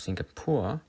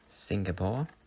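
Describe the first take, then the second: First: The name has a German pronunciation. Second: The name has an English pronunciation.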